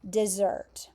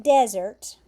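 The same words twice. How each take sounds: First: "dessert" as duh-ZERT, stress on the end; pronounced like dessert. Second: "desert" as DEZ-ert, stressed first syllable; like desert, dry place. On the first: Teacher showing how the verb is pronounced, "dessert" stressed on ZERT. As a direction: keep the first syllable of "dessert" weak, stress ZERT. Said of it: "but you pronounce it like this word". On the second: Teacher comparing spelling of two words, "desert" stressed on DEZ. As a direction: punch DEZ in "desert", let the ending drop. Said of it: "this word, like desert". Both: Shown as a demonstration.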